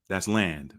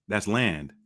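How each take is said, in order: No difference in how they are said.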